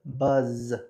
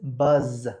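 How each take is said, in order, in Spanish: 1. El sonido final es una z sonora que vibra. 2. El sonido final es una z sonora que vibra.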